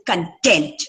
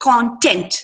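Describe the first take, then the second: First: "content" as cun-TENT, weak first vowel; stress on second syllable. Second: "Content" as CON-tent, full first vowel; stress on first syllable. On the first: Teacher showing second-syllable stress, "content" stressed on TENT. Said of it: "ಎರಡನೇ syllable ನ stress". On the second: Teacher showing the noun, "Content" stressed on CON. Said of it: "nouns stress on the first syllable". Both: Shown as a demonstration.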